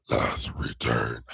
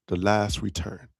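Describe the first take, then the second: First: Low slow villain voice. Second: Said in the usual way. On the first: Shown as a demonstration. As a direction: growl it like a scheming villain. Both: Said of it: "I sound like a real villain".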